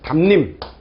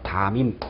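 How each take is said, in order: First: An n sound is added before the second syllable. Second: The m links straight into the vowel. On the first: The speaker calls it wrong. "원칙대로 한다면 뭐 이럴 수 있겠죠" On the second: The speaker calls it right. "아무것도 안 해요"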